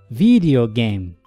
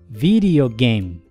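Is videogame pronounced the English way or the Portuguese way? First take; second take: English; English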